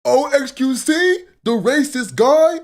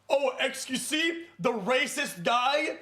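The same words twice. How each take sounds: First: Much higher, louder, slow sneering voice; hammed-up mock of his own impression; own voice mocked back. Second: Slow, slightly higher mocking voice; lightly voiced imitation of Sean; Sean impression. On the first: Shown as a demonstration. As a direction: exaggerate the impression of yourself. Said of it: "Can I do that?". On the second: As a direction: mimic Sean's sneering question. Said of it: "it's a terrible impression".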